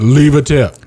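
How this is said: It is said as a falling command.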